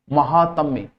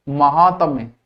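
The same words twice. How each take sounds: The two takes are said the same way.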